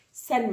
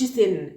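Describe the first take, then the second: First: "سن" said with a wide open "a" vowel; open-mouth fatha. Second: "سن" said with a narrow vowel, mouth not opened for the fatha; closed-mouth vowel. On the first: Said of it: "افتح بقك وانت بتنطق تنوين بالفتح". ("سن" بفتحة واضحة والبق مفتوح) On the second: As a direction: mistaken "سن" with the "a" squeezed toward "e". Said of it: "ما تقولش سن". ("سن" غلط، الفتحة مايلة للكسرة والبق مقفول) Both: Shown as a demonstration.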